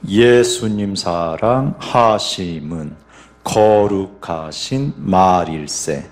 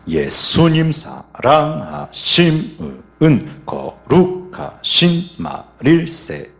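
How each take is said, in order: First: The stress falls on the first beat. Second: The stress falls on the second and fourth beats. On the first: "먼저 1박 강세입니다" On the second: "2박 4박의 강세가 있는 겁니다"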